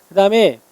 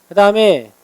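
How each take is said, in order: Both takes have the same delivery.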